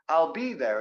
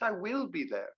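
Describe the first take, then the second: First: The words 'I will' are contracted to 'I'll'. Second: The words 'I will' are said in full. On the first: No special emphasis is intended. "they use the contractions if they don't want to put emphasis on it" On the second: The speaker insists on the point. "I separate the contraction just to put emphasis on that"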